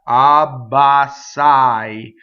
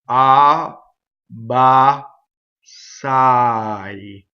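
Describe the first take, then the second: First: The syllables are said quickly without breaks. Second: The syllables are said slowly with breaks between. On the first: "when you go fast" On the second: "practice separating"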